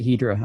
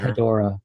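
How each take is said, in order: First: The name is said with two syllables. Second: The name is said with three syllables. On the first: "I like to pronounce it Hedra" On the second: "I don't go for the, the Hedorah"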